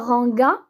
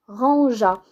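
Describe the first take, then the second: First: The g is hard, as in 'go'. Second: The g is soft, like the s in 'measure'. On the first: The speaker calls it wrong. "on ne dit pas ranga" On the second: The speaker calls it right. "mais rangea"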